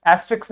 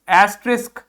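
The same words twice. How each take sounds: First: एस्ट्रिक्स ending in -riks, the mistake; wrong pronunciation. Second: एस्ट्रिस्क ending in -risk, not -riks; correct pronunciation. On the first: (गलत उच्चारण) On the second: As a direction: say एस्ट्रिस्क with sk at the end. (सही उच्चारण) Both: Shown as a demonstration. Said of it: "एस्ट्रिक्स नहीं".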